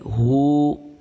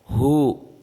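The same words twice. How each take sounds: First: The vowel is long. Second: The vowel is short. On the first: "kita kasih depannya waw yang sukun, jadi hu" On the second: "hanya berbaris domah"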